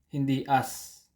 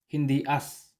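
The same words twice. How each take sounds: No difference in how they are said.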